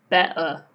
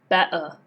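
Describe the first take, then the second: No difference in how they are said.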